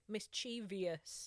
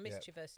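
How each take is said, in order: First: The word is said with an extra fourth syllable. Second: The word is said with only three syllables. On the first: The speaker calls it wrong. "put an extra syllable in" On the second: The speaker calls it right. "not mischievous"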